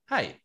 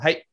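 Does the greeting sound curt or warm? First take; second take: warm; curt. First: The greeting sounds warm and genuine. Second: The greeting sounds curt and distracted.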